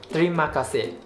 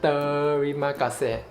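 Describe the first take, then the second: First: It is said quickly, the first syllable blended. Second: It is said slowly, each syllable clear.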